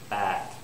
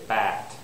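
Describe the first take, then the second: Both takes have the same delivery.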